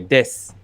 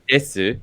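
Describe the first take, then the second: First: The final u vowel is dropped entirely. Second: The final u vowel is clearly pronounced. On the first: The speaker calls it right. "you'd say "des."" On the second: The speaker calls it wrong. "wouldn't say "desu,""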